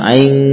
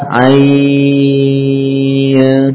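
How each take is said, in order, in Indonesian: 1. Vokalnya pendek, langsung masuk ke n. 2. Vokalnya dibaca panjang sebelum n yang samar. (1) "Jangan langsung misalkan aing sing ya" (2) "Jadi panjangkan dulu 6 harokat. Ain, baru ke nun yang samar"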